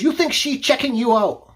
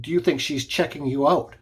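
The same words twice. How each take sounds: First: High-pitched yelled accusation; retold angry yell. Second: Said in the usual way. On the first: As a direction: mimic his broken English, pitched up. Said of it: "he looks at me and he yells".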